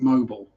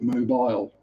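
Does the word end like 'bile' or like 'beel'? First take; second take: beel; bile. First: The ending sounds like the oil company name. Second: The ending sounds like 'bile', with a long i. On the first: This is how the Alabama city is said. "like after the oil company" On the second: This is what the spelling with an e suggests. "putting the E on the end makes it mobile"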